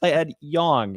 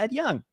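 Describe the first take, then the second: First: The surname's vowel rhymes with 'long'. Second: The surname's vowel rhymes with 'tongue'. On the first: The speaker calls it right. "and I go, "Yes, by Ed Yong,"" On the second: The speaker calls it wrong. "and you go, "Yeah, Ed Young.""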